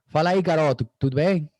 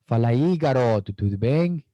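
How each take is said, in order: First: The phrase is spoken at a faster pace. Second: The phrase is spoken at a slower pace. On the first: "The Carioca speaks a little bit faster" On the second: "The Paulista is a little bit slower"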